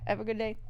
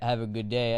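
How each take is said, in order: First: It is said in a soft, timid voice. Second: It is said in a plain, confident voice. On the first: "I say like have a, have a good day. Like have a good day" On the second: "I don't say have a good day"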